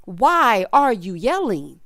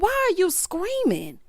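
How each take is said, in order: First: Slow, word-by-word question in normal pitch; measured, emphatic exasperated demand; deliberate exasperation. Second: High, drawn-out exasperated question; high-voiced baffled protest, not shouted. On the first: Acted. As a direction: space out each word, fed up. Repeats question slowly, back in lower register. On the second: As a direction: ask it slowly, pitched up in mock disbelief. Reacts to the imitated hollering.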